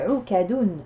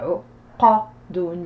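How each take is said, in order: First: The second syllable starts with a forward k sound. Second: The second syllable starts with a deep back q sound. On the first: The speaker calls it wrong. "j'ai pas dit Ou Kadoun" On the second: The speaker calls it right. "j'ai dit Ou Qadoun"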